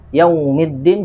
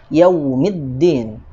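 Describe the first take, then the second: First: The first syllable's vowel sounds like o. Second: The first syllable's vowel ends in a full u. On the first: The speaker calls it wrong. "kesalahan yang sering terjadi... Yaumiddin jadi yau... seperti bunyi o" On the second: The speaker calls it right. "Harus sempurna menjadi u"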